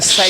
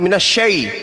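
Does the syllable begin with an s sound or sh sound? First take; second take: s; sh. First: The syllable begins with a plain s sound. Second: The syllable begins with a sh sound. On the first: The speaker calls it wrong. "bukan say" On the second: The speaker calls it right. "Yang betul"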